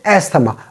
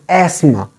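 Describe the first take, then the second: First: The th sound is pronounced in the word. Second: The th sound is silent in the word. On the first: The speaker calls it wrong. "We say asthma, but it is not asthma" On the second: The speaker calls it right. "Th is silent here"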